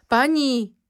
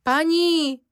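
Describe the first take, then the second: First: A loud, much higher cry up the stairs; shouting. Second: Second cry even higher and loud, near a scream; shrieking louder. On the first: Cook crying out to the lady from downstairs, loud shout. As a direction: cry out in alarm for the mistress. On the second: Cook screaming for the lady after dropping the cup. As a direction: call again, more desperate. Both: A narrator's reading. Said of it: "křičí kuchařka".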